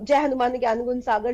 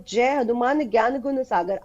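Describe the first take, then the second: First: It is recited mechanically, without feeling. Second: It is recited slowly, with heartfelt feeling.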